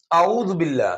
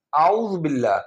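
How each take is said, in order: First: اعوذ said with a hamza sound instead of ain; اعوذ mispronounced without the throaty ain; wrong pronunciation. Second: اعوذ with a clear ain from the throat; اعوذ with a proper Arabic ain; correct pronunciation. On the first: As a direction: demo the mistake, glottal stop for the ain in اعوذ. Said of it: "اعوذ باللہ نہیں". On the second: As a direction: show the right way, voiced ain in اعوذ. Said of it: "عین کے اوپر حمزہ ہے". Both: Shown as a demonstration.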